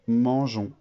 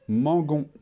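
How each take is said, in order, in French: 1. Le g est doux, comme le son zh. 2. Le g est dur, comme dans go. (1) "il me faut le E pour que je transforme le son G en son J" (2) "Si je ne mets pas le E, ça fait nous mangons"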